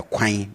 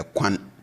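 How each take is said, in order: First: Kwan said as kwine with a nasal end; Twi ein ending. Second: Said in the usual way. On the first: Shown as a demonstration. Teacher contrasts Kwan with the flat an. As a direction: Kwan rhymes with mine. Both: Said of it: "not a".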